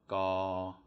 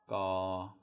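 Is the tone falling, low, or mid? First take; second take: mid; mid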